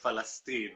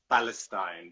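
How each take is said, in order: First: The word begins with an F sound. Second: The word begins with a P sound. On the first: This is how a Palestinian says it. "he will say Palestine" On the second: This is how an English speaker says it. "and not Palestine because they can't pronounce the P"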